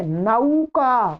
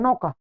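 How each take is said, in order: First: नौका said very slowly as na-u-ka, with a full a-to-u glide; slow Sanskrit नौका, nau not no; Sanskrit pronunciation. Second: नौका said quickly as no-ka, with a single o vowel; plain Hindi नौका, the au flattened to o; everyday Hindi नौका, noka; Hindi pronunciation. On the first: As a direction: stretch नौका out slowly, nau with a clear diphthong. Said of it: "क्या बोलेंगे इसको संस्कृत में?". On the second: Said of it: "Hindi भाषा में इसको नौका बोलते हैं". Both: Shown as a demonstration.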